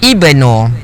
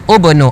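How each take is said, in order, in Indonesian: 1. Kata itu dimulai dengan vokal i. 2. Kata itu dimulai dengan vokal u. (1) "tapi ibnu" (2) "Oh salah, bukan ubnu"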